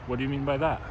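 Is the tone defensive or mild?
mild. It is said softly, without any defensive edge. The speaker comes across as naive and overly nice. The speaker calls it wrong. "their natural tone is not very defensive"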